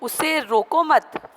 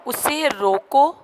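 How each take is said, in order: First: Higher, slow उसे रोको मत as one phrase; pause after मत. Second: Higher, drawn-out उसे रोको, halting on रोको; pause after रोको. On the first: Teacher showing the second sentence, break after मत. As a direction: run रोको straight into मत, then halt. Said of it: "फिर comma". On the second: Teacher showing students the comma, break after रोको. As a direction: stop on रोको, keeping मत for the next phrase. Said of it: "comma लगा हुआ है". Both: Shown as a demonstration.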